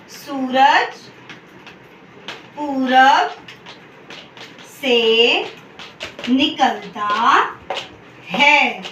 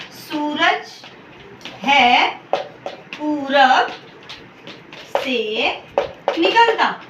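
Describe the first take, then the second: First: सूरज पूरब से निकलता है with long pauses between words; slow word-by-word dictation. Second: सूरज है पूरब से निकलता with long pauses between words; slow word-by-word dictation. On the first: Teacher dictating the corrected sentence word by word to students. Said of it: "हम क्या लिखेंगे". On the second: Teacher dictating the wrong sentence word by word to students. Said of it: "please ध्यान से देखिए". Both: Shown as a demonstration.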